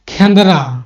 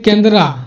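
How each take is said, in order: First: The first k sound has a puff of breath. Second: The first k sound is plain, without breath.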